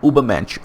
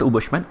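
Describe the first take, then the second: First: The word is said as 'Ubermensch'. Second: The word is said as 'Ubushman'. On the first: The speaker calls it right. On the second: The speaker calls it wrong.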